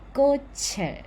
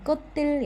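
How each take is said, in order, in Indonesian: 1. Konsonan akhirnya menyambung menjadi ch ke vokal. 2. Konsonan akhirnya terdengar seperti t sebelum vokal. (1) "Jadi cietnya masuk ke Uh, vokal selanjutnya" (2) "bukan kotel ya"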